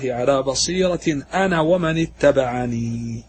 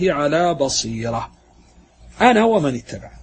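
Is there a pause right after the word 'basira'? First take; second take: no; yes. First: There is no pause right after 'basira'. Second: There is a pause right after 'basira'. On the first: The caller and his followers both proceed with insight. "الوقف الثاني أن يكون الوقف على ومن اتبعني" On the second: Only the caller himself proceeds with insight. "على بصيرة تقف ثم تقول أنا ومن اتبعني"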